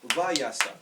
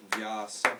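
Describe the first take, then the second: First: Vayasa in three syllables, louder; wrong Vayasa. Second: Vyasa in two syllables, vya-sa; correct Vyasa. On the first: Teacher clapping out syllables, wrong Vayasa in three beats. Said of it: "I don't get Vayasa". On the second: Teacher clapping out syllables, correct Vyasa in two beats. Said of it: "It's Vyasa". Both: Shown as a demonstration.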